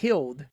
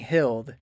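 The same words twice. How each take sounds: First: The word is pronounced in a babyish way. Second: The word is pronounced clearly and fully. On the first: The child used to speak in baby words. "instead of healed" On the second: The child now speaks like an older kid. "He's saying healed"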